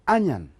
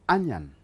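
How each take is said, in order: First: The word is pronounced the native English way. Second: The same.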